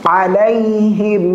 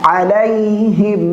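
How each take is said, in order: Both takes have the same delivery.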